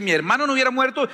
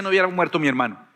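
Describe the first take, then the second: First: Brisk and raised, weight on "hubiera" with "Mi hermano" thrown out first; a quick, lifted complaint, "hubiera" stressed; quick reproach. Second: Said in the usual way. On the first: Shown as a demonstration. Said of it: "la diferencia entre las dos oraciones". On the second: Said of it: "y esta dice".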